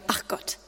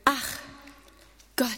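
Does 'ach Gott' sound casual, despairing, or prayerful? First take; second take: casual; prayerful. First: It is said offhandedly, as a casual sigh. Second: It is said earnestly, as a sincere invocation. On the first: It expresses mild annoyance at something recurring. "Manchmal auch vielleicht so nebenher gesagt" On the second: It is an invitation calling on God. "Kommt ja manchmal auf die Betonung an, auch diese Einladung"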